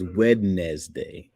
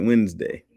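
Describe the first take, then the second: First: Slow "Wednesday" as WED-nez-day; spelling pronunciation. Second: Said in the usual way. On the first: Shown as a demonstration. Streamer insisting on the spelled form, "Wednesday" slowly as WED-nez-day. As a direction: sound the D and every syllable of "Wednesday". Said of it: "It is Wednesday". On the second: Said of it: "We were like".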